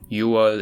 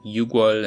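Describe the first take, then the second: First: No g sound is heard in the middle. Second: A g sound is heard in the middle. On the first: This is the actual form. The speaker calls it right. "we get" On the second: This is the form one would expect. The speaker calls it wrong. "instead of the expected"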